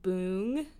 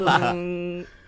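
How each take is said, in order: First: It is said plainly, without much energy. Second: It is said with lots of energy and gusto.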